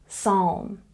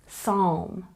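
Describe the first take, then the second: Both takes have the same delivery.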